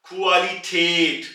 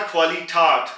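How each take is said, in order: First: क्वालिटेट, slow, with a flat ए in the last syllable; umlaut form. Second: क्वालिटाट with an open आ in the last syllable; contrast form. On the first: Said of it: "ऊपर दो नुक्ते यानी कि umlaut है". (क्वालिटेट धीरे, चपटी ए के साथ) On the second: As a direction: show the wrong form क्वालिटाट. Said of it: "अगर ये खाली आ होता". (खुली आ वाला क्वालिटाट) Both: Shown as a demonstration.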